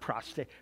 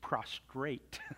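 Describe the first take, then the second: First: It has no r sound after the t. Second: It has an r sound after the t. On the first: The speaker calls it wrong. "it's not prostrate" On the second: The speaker calls it right. "Can I buy an R?"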